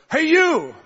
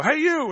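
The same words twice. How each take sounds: First: High, loud call across a coffee shop; calling out across the room. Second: High call across a busy café; calling out across the room. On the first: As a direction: call her out across the café. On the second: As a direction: hail a stranger from far off. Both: Retold or imitated. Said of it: "I had to say it intensely 'cause it's across the place".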